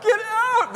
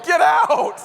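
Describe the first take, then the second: First: Even higher shrieking yell. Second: High, loud yell at the bird; panicked yell at a bird in the car. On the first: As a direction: shriek it in rising panic. Bird still flying in car. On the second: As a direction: shout it out in a panic. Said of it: "I kept yelling". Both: Retold or imitated.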